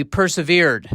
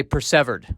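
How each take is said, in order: First: "persevered" as per-suh-VEERED, drawn out slowly; usual pronunciation. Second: "persevered" as per-SEV-erd; Shakespearean pronunciation. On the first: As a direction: stress the long last syllable of "persevered". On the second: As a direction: stress the short middle syllable of "persevered". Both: Shown as a demonstration. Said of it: "or as I like to say".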